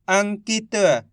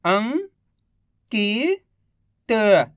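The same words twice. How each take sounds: First: Said in the usual way. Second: Each syllable drawn out very slowly; slow syllable-by-syllable reading. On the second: Shown as a demonstration. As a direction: sound out सुरंग slowly as सु-रं-ग, one sound at a time. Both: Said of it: "एक एक अक्षर का उच्चारण करके".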